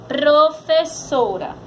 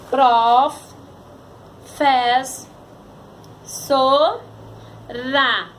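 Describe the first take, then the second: First: "Professora" slowly, joined into one word; palavra juntada. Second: "Prof, fez, so, ra" with a long pause after each; sílabas separadas. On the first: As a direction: put "Professora" back together, carefully. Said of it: "Vamos pra palavra". ("Professora" devagar, palavra inteira) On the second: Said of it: "separação de palavras". ("Prof, fez, so, ra" sílaba por sílaba, com pausas) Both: Shown as a demonstration.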